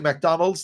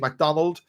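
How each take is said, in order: First: The word ends with an s sound. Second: The word ends without an s sound. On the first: "they can't say McDonald's" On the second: "They say McDonald"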